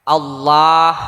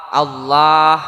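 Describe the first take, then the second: No difference in how they are said.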